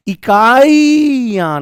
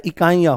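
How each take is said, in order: First: इकाइयां with a hugely stretched, loud ई in the middle; wrong long ई. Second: इकाइयां with a quick, short इ before यां; correct short इ. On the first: Teacher showing students the wrong form, इकाइयां with an overlong ई. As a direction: drag out the ई in इकाइयां, high and long. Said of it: "इकाइयां नहीं होता है". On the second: Teacher giving students the correct form, इकाइयां with a short इ. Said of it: "उसके स्थान पर छोटी ई आ जाएगी". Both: Shown as a demonstration.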